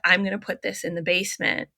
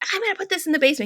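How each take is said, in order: First: It is said in a calm, matter-of-fact tone. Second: It is said in a stern, punishing tone.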